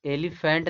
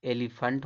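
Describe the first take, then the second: First: "एलिफेंट" with a clear -fent; rejected "एलिफेंट", full e at the end; wrong pronunciation. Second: "एलिफेंट" as eli-funt; "एलिफेंट" ending in uh-nt; correct pronunciation. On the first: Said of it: "नहीं पढ़ा जाता". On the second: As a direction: say "एलिफेंट" with a weak last vowel. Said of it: "ये सही माना गया है". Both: Shown as a demonstration.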